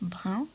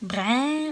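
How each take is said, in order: First: It is said in standard metropolitan French, vowel short. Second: It is said in a rural regional accent, vowel drawn out.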